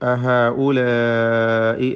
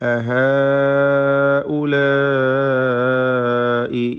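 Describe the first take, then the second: First: Only the second long vowel is drawn out. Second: Both long vowels are drawn out.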